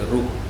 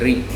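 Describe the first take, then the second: First: It is said with an u-like vowel: ru. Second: It is said with an i-like vowel: ri. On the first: This is how Gujarati and Telugu speakers say it. "In Gujarati and Telugu, they say Ru" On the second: This is how Bengali speakers say it. "in Bengali they say Ri"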